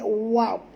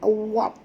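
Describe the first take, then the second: First: The sound is drawn out long. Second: The same.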